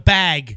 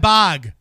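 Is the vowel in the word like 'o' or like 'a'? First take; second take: a; o. First: The vowel sounds like 'a'. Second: The vowel sounds like 'o'. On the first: The speaker calls it right. "It's a bag" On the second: The speaker calls it wrong. "What the hell's a bog?"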